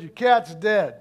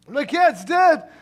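First: Mock-callous, matter-of-fact announcement; blunt. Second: Loud, high, drawn-out disbelief; hammed-up shocked question, stretched out slowly. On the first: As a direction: break bad news bluntly, no cushioning. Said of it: "That was really mean the way you just told me". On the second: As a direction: echo the bad news in loud, pained shock. Cat owner hears shocking news.

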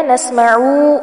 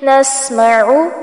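First: नस्मउ with the ain wrongly drawn out; नस्मउ said the wrong way, ain too long; wrong recitation. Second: नस्मउ with the ain kept short, not stretched; नस्मउ said the right way, ain short; correct recitation. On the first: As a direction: demonstrate the mistake: stretch the ain in नस्मउ. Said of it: "ऐसे नहीं पढ़ना". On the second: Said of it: "यहाँ पर आइन को लंबा नहीं करना". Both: Shown as a demonstration.

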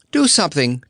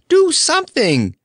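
First: Higher urgent plea; the first, smaller cry for help; anxious begging, higher voice. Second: Much higher and louder, frantic plea; a near-shriek of pleading; desperate begging. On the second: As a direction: beg as if it's the last chance. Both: Acted. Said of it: "begged Dorothy".

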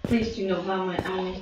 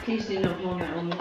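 First: Stiff fake voice; put-on plastic voice. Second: Stiff fake voice, a little fast; a put-on voice, laughing; plastic voice. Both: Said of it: "Should I just put on a fake voice".

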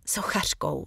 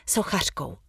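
First: Moaned. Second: Said in the usual way. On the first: A narrator's reading. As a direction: let the word slip out as a faint groan of pain. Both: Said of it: "zasténám".

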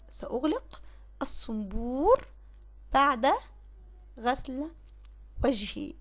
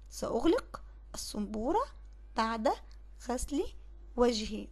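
First: Slow dictation, each word set apart by pauses. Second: Said in the usual way. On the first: Shown as a demonstration. Teacher dictating the corrected sentence to pupils, slow and word by word. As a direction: spell the sentence out slowly for the pupils. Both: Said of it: "اقول ايه؟".

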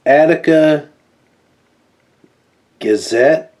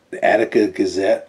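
First: Attica and Gazette split by long pauses, Gazette rising; dramatic pauses. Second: Said in the usual way. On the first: Acted. Dramatic read of the source.

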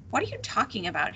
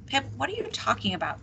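First: Quick dismissive scoff. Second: Higher, quick worried question; strained, worried. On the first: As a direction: scoff at the accusation in a hurry. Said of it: "he scoffed". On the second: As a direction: voice strained with the beginnings of worry. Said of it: "her voice strained with the beginnings of worry". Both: A narrator's reading.

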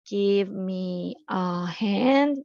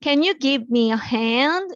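First: Drawn-out teacher model, each word spaced; very slow model reading. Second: Slow, clear teacher model of the sentence; slow model reading. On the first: Teacher drilling the phrase for kids, very slow. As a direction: stretch every word for students to copy. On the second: Teacher modelling a phrase for students, slow and clear. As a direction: spell it out slowly for the class. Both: Shown as a demonstration. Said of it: "도와주다라는 의미로 give a hand가 있어요".

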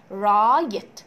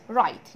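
First: رايت drawn out loudly as raa-yet; sounded-out word. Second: Said in the usual way. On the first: Shown as a demonstration. Teacher breaking down write without silent letters, slow loud raa-yet. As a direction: stretch and split رايت into its sounds, louder. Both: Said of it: "فكأني بقول إيه؟".

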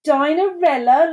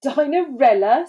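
First: High, loud, amused disbelief; mocking amusement, pitched up; mock laughing. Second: Higher, incredulous scoff; scornful rising question. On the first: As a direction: ask it as if the idea were laughable. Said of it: "laughed Doris". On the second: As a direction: scoff at the very name. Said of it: "scoffed Dora". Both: A narrator's reading.

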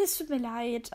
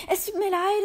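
First: Said in the usual way. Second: Higher, louder hasty sorry; squealed apology. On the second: Acted. The cat blurts a sorry to the horrified dog.

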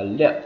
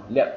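First: LIỆM as "lip" louder, with P let out; released final P. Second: LIỆM as "lip" stopped with lips closed; unreleased final P. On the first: Teacher showing first permitted option, released P on LIỆM. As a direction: finish LIỆM by popping the lips open. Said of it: "phát hoặc là anh chị có quyền ngắt". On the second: Teacher showing second permitted option, unreleased P on LIỆM. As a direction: halt LIỆM on the P without release. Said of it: "Chúng ta ngưng lại luôn ở đấy". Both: Shown as a demonstration.

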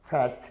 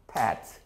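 First: Fat with an airy F; labiodental F. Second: Fat turned into pat, falling; bilabial P. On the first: Teacher repeating the contrast, fat with an F. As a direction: upper teeth on lower lip to open fat. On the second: Teacher repeating the mistake, fat as pat. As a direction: shut both lips to start fat as pat. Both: Shown as a demonstration. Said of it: "이걸 양순으로 말해서".

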